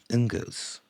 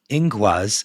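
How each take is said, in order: First: The name ends with a 'gus' sound. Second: The name ends with a 'gwaz' sound. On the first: The speaker calls it wrong. "I said it wrong" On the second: The speaker calls it right. "pronounced Ingwaz"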